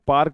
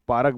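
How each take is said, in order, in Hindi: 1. यह मानक उच्चारण में बोला गया है। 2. यह कानपुर के स्थानीय उच्चारण में बोला गया है। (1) "यहाँ पार्क वार्क नहीं बोलते हैं" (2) "यहाँ पार्क बोलते हैं"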